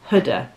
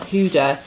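First: The first syllable sounds like 'hood'. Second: The first syllable does not sound like 'hood'. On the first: The speaker calls it right. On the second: The speaker calls it wrong. "It's not Huda"

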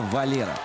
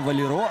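First: The stress is on the middle syllable. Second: The stress is on the last syllable. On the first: The speaker calls it right. "Ударение на последний слог в испанском языке не ставится" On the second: The speaker calls it wrong. "он не Валеро"

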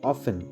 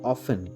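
The two takes are said the same way.

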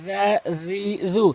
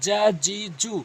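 First: Each syllable starts with a 'th' sound. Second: Each syllable starts with a 'j' sound. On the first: The speaker calls it right. "জিব্বার আগা এবং দাঁতের আগা থেকে, সামনে 2 দাঁতের আগা থেকে নর্মালি জাল বলতে হবে" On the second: The speaker calls it wrong. "অধিকাংশ লোক বলে জা জি জু, জিমের উচ্চারণ করে ফেলে"

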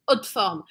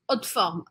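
First: The middle 'de' is swallowed in fast speech. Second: The middle 'de' is swallowed in fast speech.

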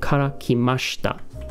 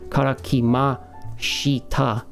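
First: The i after sh is almost silent. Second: The i after sh is fully pronounced. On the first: The speaker calls it right. "It almost sounds like mashita, right? Because that little I that's in there technically is like, it's almost silent" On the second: The speaker calls it wrong. "I am not saying kara kimashita"

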